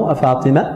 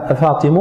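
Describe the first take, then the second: First: The name ends in an 'a' vowel. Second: The name ends in a 'u' vowel. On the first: "والنصب" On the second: "بالضم"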